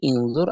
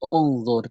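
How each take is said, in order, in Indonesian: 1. Kata ini diawali dengan vokal selain u. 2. Kata ini diawali dengan vokal u. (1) "tidak bisa menjadi" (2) "kita membacanya dengan u menjadi unzur"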